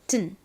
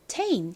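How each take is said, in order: First: The vowel drops, leaving a short syllable. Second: The syllable keeps its full vowel sound. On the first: "튼과 같이 발음이 되기도 합니다" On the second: "모두 제대로 소리가 난다면 테인은 테인 이렇게 발음이 됩니다"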